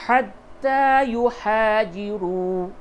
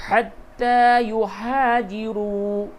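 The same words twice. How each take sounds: The two takes are said the same way.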